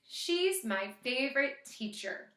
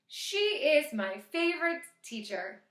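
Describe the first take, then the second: First: She is contracted into one syllable. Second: She is said as two full words. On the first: "So that's going to be an apostrophe S" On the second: "so how about she is?"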